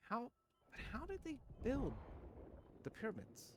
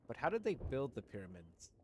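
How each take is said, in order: First: Very high-pitched mock bewilderment; mock baffled. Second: Said in the usual way. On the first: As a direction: repeat the question in a tiny, high falsetto. Repeats question in mocking high voice.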